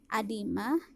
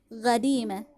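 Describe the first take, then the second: First: The word begins with a glottal stop. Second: The word begins with a Q sound. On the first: "dibaca A juga dibaca di hamzah" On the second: "dilafalkan menjadi huruf qaf"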